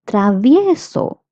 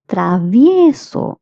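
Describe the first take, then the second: Both takes have the same delivery.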